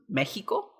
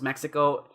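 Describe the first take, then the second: First: It is said the Spanish way, x like h. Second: It is said the English way. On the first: "the X is actually more like an H. So in Spanish it's pronounced" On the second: "in English pronounced"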